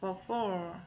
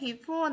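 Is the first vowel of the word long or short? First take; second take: short; long. First: The first syllable has a short, weak vowel. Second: The first syllable sounds like the letter B. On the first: The speaker calls it right. "before 이라고 발음하고요" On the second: The speaker calls it wrong. "before라고 발음하면 안 되고요. B-E가 보이지만 절대 B라고 하면 안 돼요"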